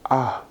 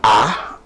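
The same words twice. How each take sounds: First: The vowel is said with a rounded mouth. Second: The vowel is said with a wide-open mouth. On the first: The speaker calls it right. "on dit A" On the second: The speaker calls it wrong. "On ne dit pas A"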